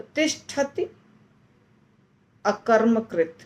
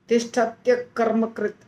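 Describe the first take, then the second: First: The two words are said apart, vowels kept whole. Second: The two words run together with the vowel merged. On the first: "अलग अलग बोलेंगे तो आसानी से समझ में आएगा" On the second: "ऐसा दिखाई दे रहा है"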